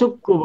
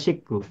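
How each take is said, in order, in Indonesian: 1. Vokal setelah bunyi sy adalah u. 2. Vokal setelah bunyi sy adalah i. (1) "syukku bukan" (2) "bukan syakka ya syikku"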